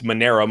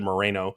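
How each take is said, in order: First: The n sound comes before the r sound. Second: The r sound comes before the n sound. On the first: The speaker calls it right. "It's Monero" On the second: The speaker calls it wrong. "I don't think that's exactly how you say it"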